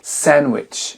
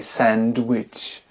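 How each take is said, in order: First: The d is silent. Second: A d sound is heard. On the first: The speaker calls it right. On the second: The speaker calls it wrong.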